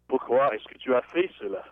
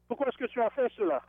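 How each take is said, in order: First: It is said in a crabby tone. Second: It is said in a neutral tone.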